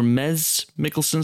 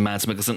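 First: The name's vowel sounds like the 'e' in 'med'. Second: The name's vowel sounds like the 'a' in 'mad'. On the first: This is closer to the Danish pronunciation. "a Danish listener said it's closer to Meds or Mez Mikkelsen" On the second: This is the anglicized pronunciation. "as in Mads Mikkelsen"

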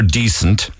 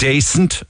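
First: The first vowel sounds like 'dee'. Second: The first vowel sounds like 'day'. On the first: This is the standard way of saying it. "for decent" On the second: This is how people in Cork say it. "we use the word dacent"

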